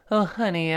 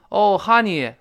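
First: It has a standard English accent. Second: It has a Chinese-influenced accent. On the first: The speaker calls it right. "是这么一个声音" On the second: The speaker calls it wrong. "你很多都这么说，受到中文影响了"

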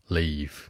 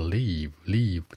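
First: The word ends in an f-like sound. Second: The word does not end in an f-like sound. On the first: The speaker calls it right. "它的尾音是一个f" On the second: The speaker calls it wrong. "很多人愿意把离开叫做leave"

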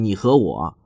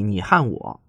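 First: The word 和 is pronounced 'he', mainland style. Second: The word 和 is pronounced 'han', Taiwanese style.

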